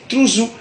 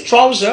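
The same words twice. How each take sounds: First: "trousou" with ou in both syllables; Godié pronunciation. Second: "trouser" with an ow vowel; English pronunciation. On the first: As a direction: say trou-zou, ending open. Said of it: "en Gaudier, c'est". (« trousou » à la godié, prononcé trou-zou) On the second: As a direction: say trow-zer for "trouser". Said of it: "en anglais, c'est". (« trouser » à l'anglaise, diphtongue aou) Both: Shown as a demonstration.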